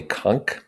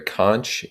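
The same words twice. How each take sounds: First: Conch with a hard K at the end, rhyming with honk; conch said konk. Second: Conch with a CH ending, rhyming with launch. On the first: Explaining the shell's name to the class, conch as konk. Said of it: "or a conch". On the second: Explaining the shell's name to the class, conch with a CH ending. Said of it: "Some people call it a conch". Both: Shown as a demonstration.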